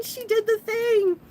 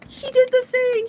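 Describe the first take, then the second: First: High, slow, thrilled fan cheer. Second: High, loud fan scream; cheering scream. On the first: Manga fans in the crowd cheer Venus, high, drawn-out cheer. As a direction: stretch the cheer out. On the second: Manga fans in the crowd cheer Venus, screaming with joy. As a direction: shriek it like a thrilled fan. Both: Retold or imitated. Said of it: "we're screaming and cheering".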